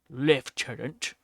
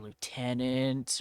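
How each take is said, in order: First: It is said in a British accent. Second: It is said in a non-British accent.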